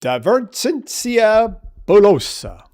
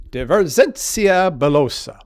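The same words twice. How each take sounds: First: "divergentia bullosa" in a mock Italian accent, high and slow, rolling the vowels; hammed-up Italian-Latin, drawn out; bad Italian accent. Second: "Divergentia bullosa" repeated in a mock Italian accent, slow and sing-song; hammed-up Italian flourish, slightly calmer; bad Italian accent. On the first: Teacher jokingly gives the Latin term, hammed-up Italian accent. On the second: Teacher repeats the Latin term, mock Italian accent. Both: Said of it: "bad Italian accent".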